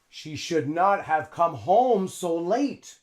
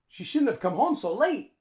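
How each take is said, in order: First: Should not is said as two full words. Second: Should not is contracted into shouldn't. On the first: The speaker calls it wrong. "a native English speaker wouldn't say this" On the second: The speaker calls it right. "A native English speaker would say"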